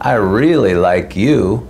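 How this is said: It is said sarcastically, with a mocking tone. The speaker does not like the listener. "which is sort of a sarcastic way of saying"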